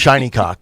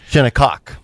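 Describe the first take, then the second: First: The first syllable rhymes with 'shine'. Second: The first syllable rhymes with 'shin'. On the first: The speaker calls it wrong. "she called it Shiny Cock" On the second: The speaker calls it right. "That's correct"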